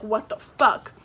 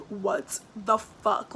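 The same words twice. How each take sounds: First: Quick irritated swear, a bit louder; pissed-off curse. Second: Very slow, drawn-out disbelieving swear; stunned disbelief. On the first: Finding trash dumped at her door, annoyed curse. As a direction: snap it out in annoyed shock. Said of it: "And I was pissed". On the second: Seeing bags of trash strewn everywhere, slow stunned curse. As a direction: stretch every word in shock. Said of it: "I literally was like". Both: Retold or imitated.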